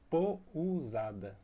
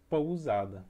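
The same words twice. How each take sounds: First: The u is said as its own full vowel. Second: The u glides with the o in one syllable. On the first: The speaker calls it wrong. "ia ficar uma palavra estranha" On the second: The speaker calls it right. "ele é uma semivogal na palavra pousada"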